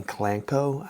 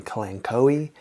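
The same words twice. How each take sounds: First: Kalanchoe said kuh-LAN-koh, with a hard K and no final ee; variant pronunciation. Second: Kalanchoe said kuh-LAN-koh-ee, with a hard K and an ee at the end; variant pronunciation. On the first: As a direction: say kalanchoe as three syllables ending in "koh". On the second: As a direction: say kalanchoe as four syllables ending in "koh-ee". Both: Shown as a demonstration. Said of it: "multiple ways to pronounce this".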